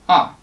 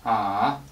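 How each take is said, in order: First: The pitch starts high and drops sharply. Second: The pitch dips low, then comes back up. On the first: "starting high, drop sharply" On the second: "drag your voice down and release it"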